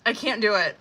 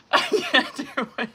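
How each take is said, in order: First: Said in the usual way. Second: Breaking into a laugh on the words. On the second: Real, not acted. To her viewers about the kitchen mess, laughing. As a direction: laugh it out, giving up. Overwhelmed by a turd on the floor.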